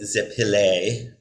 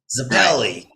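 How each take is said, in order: First: The surname is said with a standard Italian pronunciation. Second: The surname is said with a Jersey Italian pronunciation. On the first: This is how it is said in Italy. "In in Italy, it would be" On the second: This is how Italian Americans in Jersey say it. "the Jersey Italians were Zappelli"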